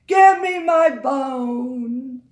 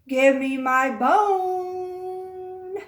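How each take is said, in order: First: It is said more loudly. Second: It is said more quietly.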